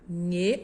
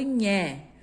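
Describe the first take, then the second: First: The vowel is a closed e sound. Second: The vowel is an open e sound. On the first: "o som do E fechado" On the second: "o som do E aberto"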